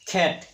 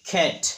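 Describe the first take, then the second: First: The first consonant has a strong puff of air. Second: The same.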